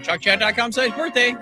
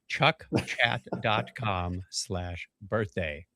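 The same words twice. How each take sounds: First: It is said at a quick pace. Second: It is said at a slow pace.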